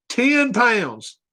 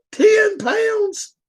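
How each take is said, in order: First: Said in the usual way. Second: Incredulous. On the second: Real, not acted. Disbelief at dog weight.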